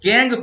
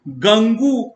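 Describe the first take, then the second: First: The word ends on a plain 'ng' sound. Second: The word ends with an added 'oo' vowel. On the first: The speaker calls it right. "गैंग प्रोनाउंसिएट कीजिएगा" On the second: The speaker calls it wrong. "मत बोलिएगा"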